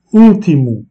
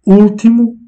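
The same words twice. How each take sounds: First: Ultimo loud, U stressed. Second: Ultimo said high and loud, U stressed. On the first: Teacher repeats Ultimo for learners, stress on U. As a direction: lean on the U of Ultimo. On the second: Teacher models Portuguese Ultimo, stress on U. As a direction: punch the U of Ultimo. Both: Shown as a demonstration. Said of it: "est placé sur le U".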